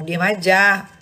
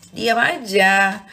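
First: Firm and a bit louder; said once with a firm push. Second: "diam aja" drawn out slow, each word weighted; slow it right down, word by word; drawn out with heavy weight on "diam"; slow emphasis. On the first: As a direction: say it plainly but firmly. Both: Shown as a demonstration.

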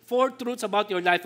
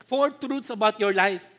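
First: Said in the usual way. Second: Slow, weighty title read; slow announcement. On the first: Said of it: "repeat of outline". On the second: Shown as a demonstration. Preacher announcing sermon outline, slow and weighty. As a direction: announce "Four truths about your life." slowly with weight. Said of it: "announcing the outline".

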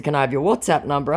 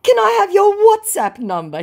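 First: Said in the usual way. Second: Very high, loud mock request; hammed-up hopeful wheedle; wheedling scammer. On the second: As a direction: ask in a squeaky put-on voice. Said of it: "he tries".

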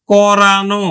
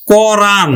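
First: "করানো" ending in a clear no; final o sound. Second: "কোরআন" said as koran, closed on n; "কোরআন" ending in a plain -an; bare an ending. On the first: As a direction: say "করানো" with an o after n. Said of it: "আনো প্রত্যয়ের অন্তে আমরা ওকার দিব". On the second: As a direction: say "কোরআন" with no vowel after n. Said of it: "আন বা আনো প্রত্যয়ের". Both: Shown as a demonstration.

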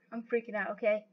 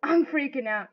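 First: Soft, low admission; subdued aside. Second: Said in the usual way. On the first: Real, not acted. Nervous player talking to themselves, subdued. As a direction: drop it right down, almost to yourself. Repeats it under the breath.

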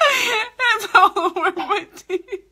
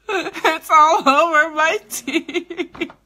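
First: Higher, slow, breaking into laughing sobs; laugh-crying. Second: Slow, high whiny complaint; mock whine. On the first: Pretend. Lipstick on her teeth, she laugh-cries higher. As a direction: let the laughter crack it like crying. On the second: Lipstick on her teeth, she whines slowly. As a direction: drag it out like a sad whine.

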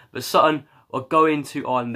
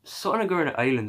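First: Said in the usual way. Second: Quick, higher mock Irish accent; hammed-up Irish accent. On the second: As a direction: say it like a playful Irish fan. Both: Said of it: "I'm gonna stop doing the accent now".

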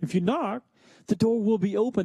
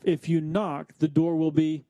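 First: "the door will be open" said higher, as the full answer; finished sentence, landing on "open"; completed prompt. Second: "the door will be" left hanging for listeners to finish; unfinished prompt, cut off after "will be"; left open for completion. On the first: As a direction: lift the pitch and carry through to "open". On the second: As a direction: stop short after "the door will be," inviting the missing word. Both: Shown as a demonstration. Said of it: "you can finish that sentence".

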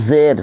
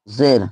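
First: "জের" with the vowel stretched long, the wrong way; wrong drawn-out demo. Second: "জের" said short and quick with a pure i-sound; correct short demo. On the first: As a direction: draw out "জের" like a beginner's mistake. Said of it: "যদি আমরা এরকম পড়ি তাহলে আমাদের পড়াটা ভুল হবে". ("জের" টেনে লম্বা করে ভুল উচ্চারণ) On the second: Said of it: "একটু টান দিয়ে পড়তে ঠিকই". ("জের" তাড়াতাড়ি, ছোট করে সঠিক উচ্চারণ) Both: Shown as a demonstration.

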